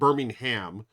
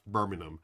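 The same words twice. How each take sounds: First: It is pronounced the American way. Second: It is pronounced the British way. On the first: The speaker calls it wrong. "Not Birmingham, like how we would uh, say in the U S" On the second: The speaker calls it right. "but Brass Birmingham"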